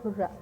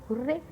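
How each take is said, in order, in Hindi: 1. शब्द 'ah' ध्वनि से खत्म होता है। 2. शब्द 'ay' ध्वनि से खत्म होता है। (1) "हुर्रा नहीं बोलते" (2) "क्या बोलते हैं? हुर्रे"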